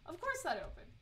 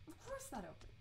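First: Said in the usual way. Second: "Of course that opened" muttered softer to herself; soft self-mocking echo; quiet repeat. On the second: Real, not acted. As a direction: drop it to a wry aside. Repeats remark, second take quieter.

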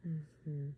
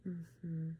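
Both takes have the same delivery.

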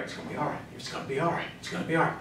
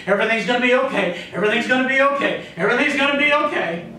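First: Soft, low soothing murmur; hushed mock reassurance, well under the voice; positive thinker. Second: Rapid-fire insistent reassurance; quick, repetitive mock optimism, climbing in pitch; positive thinker. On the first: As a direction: play someone quietly reassuring themselves. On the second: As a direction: chant it fast, like someone convincing themselves. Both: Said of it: "Those are the positive thinkers".

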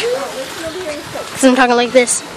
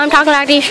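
First: Slow, softer silly voice; slowed-down, goofy delivery; silly way of talking. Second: Said in the usual way. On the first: Shown as a demonstration. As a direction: draw it out playfully, a little quieter. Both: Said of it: "no idea why I'm talking like this".

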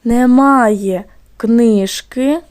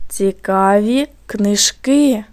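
First: Very slow, "книжки" stressed on КНИЖ; stress on first syllable. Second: Slow, "книжки" stressed on КИ; stress on last syllable. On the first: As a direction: dictate slowly, leaning on the first syllable of "книжки". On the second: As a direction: dictate slowly, leaning on the final syllable of "книжки". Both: Shown as a demonstration. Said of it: "як змінився наголос в слові".

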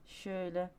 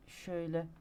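Both takes have the same delivery.

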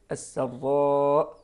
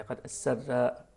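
First: السراء with a heavy, thick ra and a light sin, slow; السراء, slow, ra full and heavy; correct reading. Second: السراء with a thin, light ra; السراء said with the ra not thickened; السراء, ra soft and thin; wrong reading. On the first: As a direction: draw out السراء, ra thickened and doubled. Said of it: "هكذا، بتفخيم الراء وترقيق السين". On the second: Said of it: "لا، غير صحيح". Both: Shown as a demonstration.

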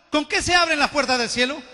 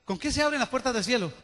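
First: "¿Con qué se abren las puertas del cielo?" asked at normal level, pitch rising on qué; rising question. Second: "¿Con qué se abren las puertas del cielo?" repeated much softer, falling at the end. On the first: Pastor first asking the church the question, rising tone. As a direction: put the question to them, lifting at the end. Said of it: "repeats question, first take". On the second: Pastor repeating the question quietly to make it land. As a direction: drop your voice and let the question sink in. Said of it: "repeats question, second take". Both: Shown as a demonstration.

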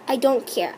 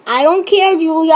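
First: Soft, low, tossed-off I don't care; muttered dismissal. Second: Louder, pushier I don't care aimed at Julia; exasperated retort. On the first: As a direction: say it under your breath, brushing her off. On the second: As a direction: push the words at her, fed up. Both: Real, not acted. Repeating dismissal to Julia.

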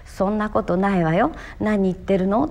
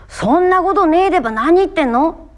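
First: Said in the usual way. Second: High, loud Tohoku country retort; Tohoku country dialect. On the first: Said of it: "これは標準語で言えば". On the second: Shown as a demonstration. Actor finding the line's feel through home dialect, spirited Tohoku retort. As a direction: throw it out in earthy Tohoku dialect. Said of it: "みたいなニュアンスかな".

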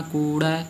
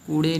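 First: ਕੂੜੈ ending in an open ae. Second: ਕੂੜੇ ending in a close e; wrong e ending. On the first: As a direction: end ਕੂੜੈ on open e as in "bed". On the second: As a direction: end ਕੂੜੇ on e as in "they". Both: Shown as a demonstration. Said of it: "ਕੂੜੇ ਨਹੀਂ ਬੋਲਣਾ".

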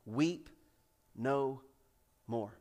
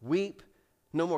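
First: Soft and tender, weep no more; tender repetition. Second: Quiet, gentle weep no more; soft repetition. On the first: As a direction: savour each word gently. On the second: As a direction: say it softly once more. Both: Real, not acted. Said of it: "three of the most beautiful words".

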